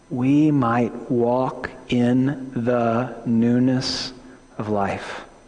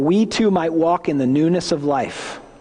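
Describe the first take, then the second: First: It is read slowly. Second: It is read fast.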